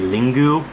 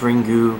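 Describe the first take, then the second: First: Two syllables, starting with l, ending in u. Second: Two syllables, starting with r, ending in u. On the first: This is a truer Japanese pronunciation. "if it was real Japanese pronunciation, it would be Lingu" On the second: This is how the Japanese say it. "because it's Japanese pronunciation"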